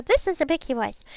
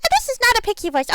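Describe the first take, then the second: First: Small, lilting pixie. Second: High, raised voice; not quite pixie voice. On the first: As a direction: speak as a little pixie. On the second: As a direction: pitch it high, short of a full pixie. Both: Shown as a demonstration.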